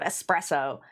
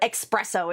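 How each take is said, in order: First: The word begins with an 'es' sound. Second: The word begins with an 'ex' sound. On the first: This is the standard way of saying it. The speaker calls it right. "instead of espresso" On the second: This is a common American way of saying it. The speaker calls it wrong. "an American thing to call it espresso"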